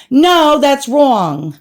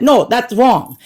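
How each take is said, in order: First: Slow, stretched, higher mock "No, that's wrong"; exaggerated drawn-out denial. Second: Said in the usual way. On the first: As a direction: overplay the denial, dragging "No". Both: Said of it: "they didn't say it like that".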